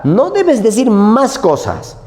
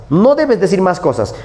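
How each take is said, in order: First: "No debes decir más cosas", slow and higher, each word pressed; slow teacherly emphasis on "debes"; emphatic rule. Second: Said in the usual way. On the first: Shown as a demonstration. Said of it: "teacher stressing a rule". ("No debes decir más cosas" lento y enfático, acentuando "debes") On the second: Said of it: "repeated plainly".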